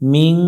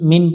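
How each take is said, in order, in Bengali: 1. শেষের n একটি নাকি গুনগুন স্বরে লুকিয়ে থাকে। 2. শেষের n পুরোপুরি ও স্পষ্টভাবে উচ্চারিত হয়। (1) "মিং নুনটাকে বাংলায় অনেক স্বর উচ্চারণ করব" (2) "মিন পড়া যাবে না"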